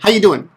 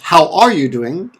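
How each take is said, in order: First: The word 'are' is dropped entirely. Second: The word 'are' is clearly pronounced. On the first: This is the casual, conversational form. "But we often say" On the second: This is the careful, standard form. "Good English is"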